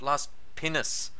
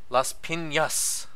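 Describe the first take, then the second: First: The middle consonant is a plain n sound. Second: The middle consonant is an ny sound. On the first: The speaker calls it wrong. "It's not Las Pinas" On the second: The speaker calls it right. "it's Las Piñas"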